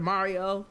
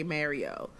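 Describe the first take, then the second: First: Mario with an open "ah"; Mario, first syllable like "mar"; usual American pronunciation. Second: Mario with the vowel of "marry"; Canadian Mario, first syllable like "mare"; Canadian pronunciation. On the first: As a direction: say Mario as MAH-ree-oh. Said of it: "instead of Mario". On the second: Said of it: "pretty Canadian thing for people to say". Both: Shown as a demonstration.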